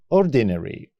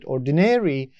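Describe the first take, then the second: First: It is said with a British pronunciation. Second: It is said with an American pronunciation. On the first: "but in British English, it is ordinary" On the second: "In American English, we pronounce it ordinary"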